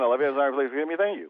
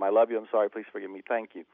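First: It is said very fast. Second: It is said at a normal pace.

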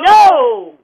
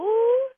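First: It is said angrily. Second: It is said in a confused way.

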